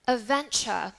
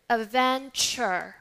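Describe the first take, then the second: First: "adventure" ending in "chuh"; British non-rhotic. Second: "adventure" slowly, ending in "cher" with R sounded; American rhotic R. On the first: Teacher models next example, British, no R. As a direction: drop the final R of "adventure". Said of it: "in British accent, we would say". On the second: Teacher contrasts the example, American R. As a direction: stretch "adventure" into a clear final R. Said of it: "In American English". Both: Shown as a demonstration.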